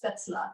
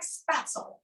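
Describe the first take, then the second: First: It is said with the original German pronunciation. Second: It is said with a Kentucky English pronunciation. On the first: "the real uh, pronunciation is spätzle" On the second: "that's what we might call it in Kentucky"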